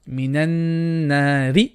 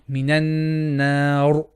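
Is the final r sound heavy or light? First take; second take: light; heavy. First: The final r is light, with a vowel after it. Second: The final r is heavy, with no vowel after it. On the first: "Let's read it without pausing" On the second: "And if pausing, ... Ra becomes heavy"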